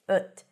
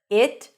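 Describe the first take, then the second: First: The vowel is a very short, neutral schwa sound. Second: The vowel is a full, slightly longer 'i' sound. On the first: "schwa is really short" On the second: "I takes up a little space"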